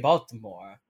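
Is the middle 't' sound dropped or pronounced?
pronounced. The middle t sound is clearly pronounced. "the way they don't say Baltimore"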